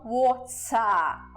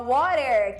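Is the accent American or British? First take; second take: British; American. First: It is said in a British accent. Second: It is said in an American accent.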